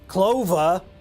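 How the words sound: The final r is dropped, Boston style. "Clova in the traditional Boston accent"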